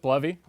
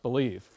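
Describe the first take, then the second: First: The name sounds like blev-ee. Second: The name sounds like the word believe. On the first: This is how the author says it. "I pronounce it Blevy" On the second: This is how some people say it. "I thought it was pronounced believe"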